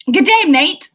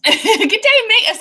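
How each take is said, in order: First: Mock Aussie greeting, loud; cheery mock Aussie hello; Australian accent. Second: Higher mock Aussie greeting, loud; playful Aussie hello, pitched up; Australian accent. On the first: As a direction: try on a broad Australian accent. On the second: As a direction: have another go at the Australian accent. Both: Shown as a demonstration. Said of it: "so that's something Australians say".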